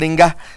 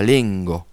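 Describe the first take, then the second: First: The word ends with a plain a sound. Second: The word ends with a slightly open o sound. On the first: The speaker calls it wrong. "n'allez pas dire lenga" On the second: The speaker calls it right. "Ça finit par une sorte de O qui a un O un peu ouvert"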